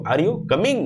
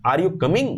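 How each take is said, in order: First: Coming rising higher at the end; clearly rising question on coming. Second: Coming rising at the end. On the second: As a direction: lift the pitch on coming. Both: Shown as a demonstration. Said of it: "rising tone".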